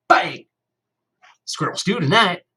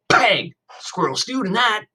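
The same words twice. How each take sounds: First: High, loud mock bang, then a grin; playful gunshot. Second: High, loud mock bang from a small boy; little kid copying. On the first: New kid pretending his finger is a gun, playful loud bang. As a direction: shoot with a finger and gloat. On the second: Little brother imitating the gun, high playful bang. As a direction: copy big brother's bang. Cody copies his brother. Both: A narrator's reading.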